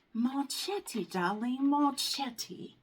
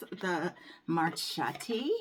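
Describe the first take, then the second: First: Marchetti sung out high in a mock Italian flair, darling rising; mock fancy accent. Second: Marchetti drawn out slowly; slow savored Marchetti; savoring the name. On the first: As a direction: play a glamorous foreign diva saying Marchetti. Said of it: "I wish I had an accent". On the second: Shown as a demonstration. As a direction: roll out Marchetti slowly like a treat. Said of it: "I love saying that".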